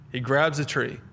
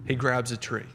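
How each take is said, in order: Both takes have the same delivery.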